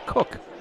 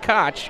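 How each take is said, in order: First: The name is pronounced as 'Cook'. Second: The name is pronounced as 'Koch'. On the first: The speaker calls it right. "his family pronounces it not Koch, Cook" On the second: The speaker calls it wrong. "his family pronounces it not Koch"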